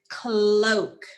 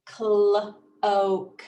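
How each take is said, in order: First: "cloak" joined as one drawn-out word; blended word. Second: "Cl-" and "oak" said separately with a gap; sounded out in parts. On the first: Teacher revealing the new word, "cloak" blended carefully. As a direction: run the sounds of "cloak" together, no gap. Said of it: "My new word is". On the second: Teacher prompting students to blend, "Cl-" held apart from "oak". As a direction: break the word into "Cl-", pause, "oak". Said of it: "What's my new word?". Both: Shown as a demonstration.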